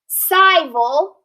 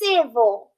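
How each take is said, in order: First: The first vowel sounds long. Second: The first vowel sounds short. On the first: The speaker calls it wrong. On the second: The speaker calls it right. "it's civil"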